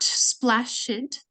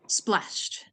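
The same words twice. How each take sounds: First: The ending is pronounced as an extra syllable. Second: The ending is a plain t sound, no extra syllable. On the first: The speaker calls it wrong. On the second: The speaker calls it right.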